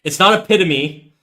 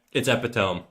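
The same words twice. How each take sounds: First: "epitome" said as uh-PIT-uh-mee, four syllables; "epitome" ending in -mee, stressed on the second syllable; other pronunciation. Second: "epitome" said as eh-puh-tome, three syllables, rhyming with home; "epitome" as three syllables, ending in tome; correct pronunciation. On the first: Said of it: "These are two different words". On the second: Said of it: "Look up the pronunciation of epitome". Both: Shown as a demonstration.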